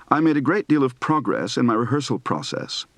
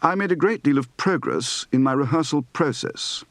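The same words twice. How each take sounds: First: Said in the usual way. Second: "progress" and "process" as PROH-gress, PROH-sess; long British O in "process"; British O diphthong. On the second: Shown as a demonstration. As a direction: say "progress" with an uh-oo glide. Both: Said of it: "Practice for the diphthong O".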